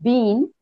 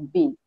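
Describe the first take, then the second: First: The vowel is long and full. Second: The vowel is short and reduced. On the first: "Usually we pronounce it bean" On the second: "when we have to use weak form, we should say bean"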